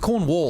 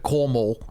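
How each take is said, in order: First: The middle consonant is a W sound. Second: The middle consonant is an M sound. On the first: The speaker calls it right. "It's spelled Cornwall" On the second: The speaker calls it wrong. "I thought it was an M, not a W"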